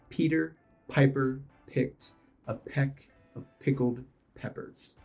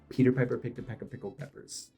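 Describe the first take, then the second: First: It is said slowly. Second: It is said fast.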